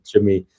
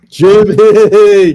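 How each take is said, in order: First: Said in the usual way. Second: Loud, high shout of the name; calling out. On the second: Real, not acted. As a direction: yell Jimmy across the room, falling at the end. Calling out to Jimmy on air.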